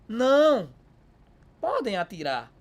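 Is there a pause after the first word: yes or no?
yes. There is a pause after não.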